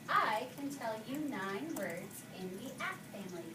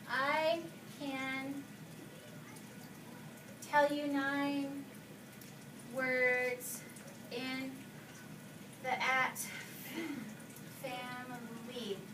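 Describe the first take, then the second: First: The words flow together smoothly without breaks. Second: The words are read choppily, broken apart. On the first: The speaker calls it right. "If I read it like this" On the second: The speaker calls it wrong. "Is that smoothly?"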